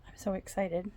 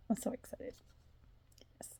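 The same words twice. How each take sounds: First: Said in the usual way. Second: Breathy, sighing whisper of delight; sighed whisper. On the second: Real, not acted. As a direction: sigh the words out dreamily. Sighs it out whispered.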